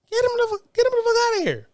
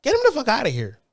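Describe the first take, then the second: First: Much higher, yelled get 'em the fuck outta here; ranting about minorities, high and exasperated; exasperated outburst. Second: Said in the usual way. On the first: Real, not acted. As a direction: fling it out, fed up. Repeated demand, much higher.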